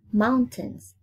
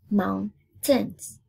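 First: Said in the usual way. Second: MOUNTAINS split into moun, tains; syllable by syllable. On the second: Shown as a demonstration. Teacher counting two syllables for pupils, syllable by syllable. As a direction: break "Mountains" in two with a gap. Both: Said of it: "Two syllables".

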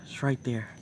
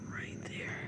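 First: Said in the usual way. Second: Soft whispered repeat; hushed whisper pointing at the spider. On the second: Real, not acted. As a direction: whisper it like the bug could hear.

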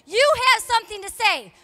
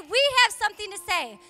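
First: YOU punched high and loud; stress on YOU. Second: WE punched high and loud; stress on WE. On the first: Preacher rallying the church, stress on YOU. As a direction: hit the word YOU hard. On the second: Preacher joins herself to church, stress on WE. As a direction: hit the word WE hard. Contrasting we with you. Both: Real, not acted.

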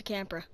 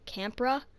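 First: "camera" squashed into two syllables, like "campra"; slurred slip. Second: "Camera" as a higher, louder "campra?" with rising tune; questioning slip. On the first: Player fumbling a word while looking around Minecraft, slurred slip. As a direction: trip over "camera", swallowing the middle vowel. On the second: Player questioning their own botched word, questioning slip. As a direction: query your own fumbled "Camera", middle vowel still missing. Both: Real, not acted. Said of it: "Jesus, I can't speak today".

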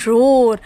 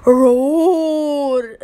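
First: Said in the usual way. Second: Long drawn-out mild roar; teacher's imitation of a lion roaring. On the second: Shown as a demonstration. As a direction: stretch the word into a gentle lion's roar. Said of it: "How do lion roar?".

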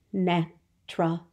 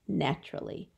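First: "Naturally" in three separate beats; syllable by syllable. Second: Said in the usual way. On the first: Shown as a demonstration. Teacher showing a three syllable word, "Naturally" broken in three. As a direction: pause after each syllable of "Naturally". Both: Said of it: "That was a three syllable".

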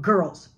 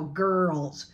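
First: Put-on girls cut short, R at the back of the throat; really short girls. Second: Put-on girls drawn out on a long curled R; joined-up girls. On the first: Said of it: "really short". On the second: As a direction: stretch the R through girls in one piece. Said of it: "and then just go". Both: Shown as a demonstration.

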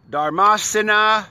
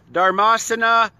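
The two takes are said the same way.

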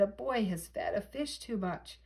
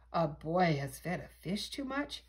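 First: Said in the usual way. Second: "too much" said as a puzzled question; echoed question. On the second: A narrator's reading. Firemen answering the radio call, puzzled question.

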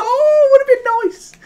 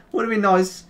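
First: Very high, squealed regret; high, half-laughing disappointment; amused regret. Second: Said in the usual way. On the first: Real, not acted. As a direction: squeak it out after the near miss. Laughing after missed shot.

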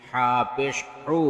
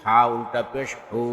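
First: Final "হু" cut short; quick short vowel. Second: Final "হু" held long; drawn-out vowel. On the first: Teacher demonstrating normal pesh, short "হু". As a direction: keep the last "হু" brief, not held. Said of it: "তাড়াতাড়ি করতে হয়". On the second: Teacher demonstrating ulta pesh, long "হু". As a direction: stretch the last "হু" for one alif. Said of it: "একালিপ টেনে পড়তে". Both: Shown as a demonstration.

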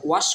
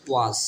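First: ওয়াশ ending in a "sh" sound; children's mispronunciation. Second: ওয়াজ ending in a voiced "z/j" sound; correct S sound. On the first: Teacher showing how many children say it, ওয়াশ mispronounced with "sh". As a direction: say ওয়াশ with a hushing final "sh". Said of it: "অনেক বাচ্চারা ওয়াশ বলে". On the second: Teacher showing pupils how S sounds here, ওয়াজ with final "j". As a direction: say ওয়াজ with a buzzing final consonant. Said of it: "এস এর উচ্চারণ এখানে হবে বর্গীয় জন্ম মতো". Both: Shown as a demonstration.

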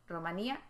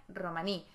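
First: Romanía con acento en la í final de -nía; Romanía con tilde. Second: Romaní, sin la a final y con acento en la í; Romaní corregido. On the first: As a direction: di Romanía cargando la í. (Romanía, acentuando la í) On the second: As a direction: di Romaní, corto y terminado en í. (Romaní, sin la a final) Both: Shown as a demonstration. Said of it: "No lleva tilde".

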